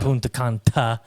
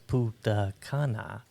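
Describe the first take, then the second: First: The second word has a 't' sound. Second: The second word has no 't' sound. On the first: The speaker calls it wrong. "I like saying" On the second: The speaker calls it right. "it's Punta Cana"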